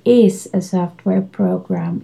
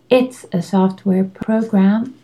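First: The T sound of it's is dropped. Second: The T sound of it's is pronounced. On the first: The speaker calls it wrong. "You cannot say is a software program" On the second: The speaker calls it right. "You need to say it's a software program"

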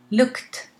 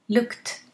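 Both takes have the same delivery.

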